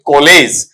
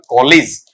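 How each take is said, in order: First: कॉलेज with a long "ay" in the ending; drawn-out second vowel in कॉलेज; wrong pronunciation. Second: कॉलेज with a short i in the ending; brief, light second vowel in कॉलेज; correct pronunciation. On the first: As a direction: say कॉलेज as "ko-LAYZ". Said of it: "और ये कॉलेज नहीं होगा". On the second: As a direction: say कॉलेज as "KOL-iz". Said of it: "इसे आप पढ़ेंगे वहां पर". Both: Shown as a demonstration.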